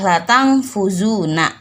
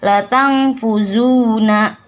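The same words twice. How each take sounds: First: The vowel in zu is kept short. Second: The vowel in zu is held long. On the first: The speaker calls it wrong. "Nggak boleh" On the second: The speaker calls it right. "Dibacanya panjang dua harkat"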